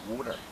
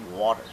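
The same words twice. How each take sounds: First: It is said in a Philadelphia accent. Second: It is said in a standard accent.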